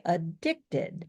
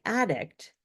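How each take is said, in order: First: Slow adDICTed, strong DICT; "addicted" with a light first syllable and stressed DICT; stress on second syllable. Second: "addict" said as the noun, strong AD; stress on first syllable. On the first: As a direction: punch the middle syllable of "addicted". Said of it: "you say addicted". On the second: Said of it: "You don't say addict". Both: Shown as a demonstration.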